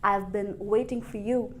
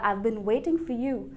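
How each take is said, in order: First: I have is shortened to I've. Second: I have is shortened to I've.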